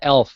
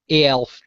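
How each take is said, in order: First: The word begins directly with the 'e' sound. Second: The word begins with an extra 'ay' sound. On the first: This is the older familiar name. "I still pronounce it Elf" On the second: This is the newer official name. "they're called A-Elves"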